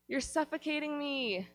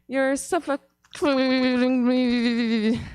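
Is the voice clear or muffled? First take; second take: clear; muffled. First: It is said in a plain, clear voice. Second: It is yelled in a muffled, smothered voice.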